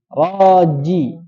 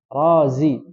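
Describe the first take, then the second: First: The middle consonant is a j sound. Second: The middle consonant is a z sound. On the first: The speaker calls it right. "Ja, ji, ju" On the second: The speaker calls it wrong. "Jangan dibaca za"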